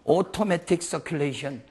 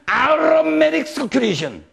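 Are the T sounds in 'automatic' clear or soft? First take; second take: clear; soft. First: The T sounds are pronounced clearly. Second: The T sounds are softened, American style. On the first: "내 발음 괜찮죠?" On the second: "미국에서는 ... 그 사람들은 T 발음을 안 해요"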